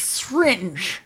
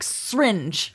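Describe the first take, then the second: First: The middle syllable is fully pronounced. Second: The middle syllable is dropped from the word. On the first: The speaker calls it right. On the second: The speaker calls it wrong.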